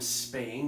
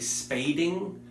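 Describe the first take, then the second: First: The word has no d sound in the middle. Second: The word has a d sound in the middle. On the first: The speaker calls it right. "the term spaying" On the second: The speaker calls it wrong. "you say spading, I don't know if you can be a client anymore"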